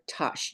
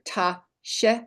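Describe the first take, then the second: First: It is said as one joined syllable. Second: It is split into two parts with a break. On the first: "or tash" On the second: "Either ta, sh"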